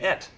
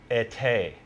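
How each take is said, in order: First: The word is said as one syllable. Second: The word is said as two syllables. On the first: The speaker calls it wrong. "we were saying et. What do you think French? You don't pronounce the last E" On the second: The speaker calls it right. "it's pronounced été"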